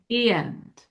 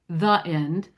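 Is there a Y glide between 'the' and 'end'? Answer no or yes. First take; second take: yes; no. First: A Y glide links the two words. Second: No Y glide links the two words. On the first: The speaker calls it right. "We say" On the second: The speaker calls it wrong. "we shouldn't say the end"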